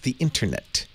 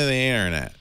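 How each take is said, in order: First: The middle t sound is sharply pronounced. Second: The middle t sound is dropped. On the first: "It's a little over precise" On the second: "I always end up wanting to say internet"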